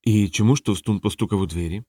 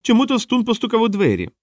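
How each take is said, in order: First: Low-key, joyless repeat of a riddle; dutiful, uninterested question; unenthusiastic. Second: High-pitched clown telling a riddle; delighted squeaky riddle; gleeful clown. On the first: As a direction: play along without any enthusiasm. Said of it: "Колон не відчував ентузіазму". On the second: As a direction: set up the joke in a high, eager voice. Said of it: "радів він". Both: A narrator's reading.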